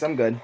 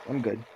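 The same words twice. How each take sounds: First: Said in the usual way. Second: Repeated much softer; quiet. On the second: Real, not acted. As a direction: drop to a near mumble. Repeats the refusal.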